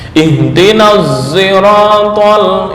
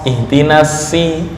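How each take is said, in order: First: The s sounds like z with rounded lips. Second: The s is a plain, light s. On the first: "membaca ishmam shad berubah menjadi suara za, tapi dengan posisi ishmam, artinya bibir mencucu ke depan" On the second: "membaca dengan sin murni"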